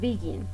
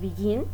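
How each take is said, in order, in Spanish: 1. El acento está en la primera sílaba. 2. El acento está en la segunda sílaba. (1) "No decimos begin" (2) "entonces es begin. El acento... está en la segunda sílaba"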